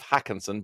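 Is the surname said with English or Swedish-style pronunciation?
English. The surname is read plainly as English spelling. The speaker calls it wrong. "it's written down, it's Gustav Hoekensen, but I'm not happy with that"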